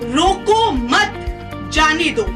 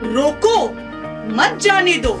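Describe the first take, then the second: First: The pause comes after the word 'mat'. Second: The pause comes after the word 'roko'. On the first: Do not stop the thief; let him go. The speaker calls it wrong. "सरिता ने अपने शब्दों को विराम रोको मत शब्दों के बाद दिया" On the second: Stop the thief; do not let him go. The speaker calls it right. "यदि सरिता अपने शब्दों को विराम कुछ इस प्रकार देती"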